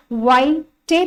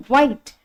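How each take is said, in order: First: वाइटे, with the silent e sounded as "ay"; wrong reading of वाइट. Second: Said in the usual way. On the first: Shown as a demonstration. Teacher showing what students don't say, वाइटे with a sounded final e. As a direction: split it as वाइ-टे, adding an end vowel. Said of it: "वाइटे तो नहीं पढ़ते हो". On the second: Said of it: "आप पढ़ते हैं वाइट".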